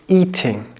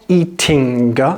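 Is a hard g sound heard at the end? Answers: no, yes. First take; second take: no; yes. First: It ends in ng with no hard g. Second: A hard g sound is heard at the end. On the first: The speaker calls it right. "it's eating" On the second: The speaker calls it wrong. "It's not eating"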